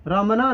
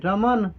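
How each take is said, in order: First: रमना with a clear final a; रमना, the n followed by an open a; wrong pronunciation. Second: रमन ending on a bare n; रमन said without a final a; correct pronunciation. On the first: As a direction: say रमना with the extra vowel at the end. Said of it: "रमना नहीं". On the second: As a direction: close रमन on the n with no vowel. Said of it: "न के बाद अ नहीं हो रहा है". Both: Shown as a demonstration.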